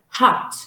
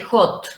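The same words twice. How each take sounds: First: The vowel is a wide open O sound. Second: The vowel is a closed O sound. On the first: The speaker calls it right. "but hot" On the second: The speaker calls it wrong. "you don't say hot"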